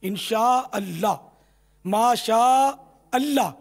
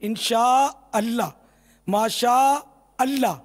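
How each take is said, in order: No difference in how they are said.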